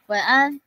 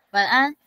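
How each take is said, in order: The two takes are said the same way.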